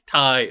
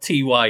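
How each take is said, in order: First: The name is said as one word. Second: The name is spelled out as two letters. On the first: The speaker calls it right. "it's Ty" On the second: The speaker calls it wrong. "it's not T-Y"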